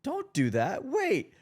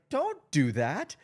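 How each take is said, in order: First: Higher, louder retold warning to a friend; firm warning. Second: Higher, louder and slower retold warning; slow firm warning. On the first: Friend quoting the host's sudden warning, raised and higher. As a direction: cut them off with a sharp don't. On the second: Friend quoting the host's warning again, slow and firm. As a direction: lean on each word as a firm don't. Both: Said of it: "You're like".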